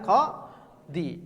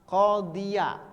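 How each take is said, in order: First: The word ends in a bare 'i' sound. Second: The word ends with a full 'iya' syllable. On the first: The speaker calls it wrong. "bukan qadi" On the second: The speaker calls it right. "qadiya, bukan qadi"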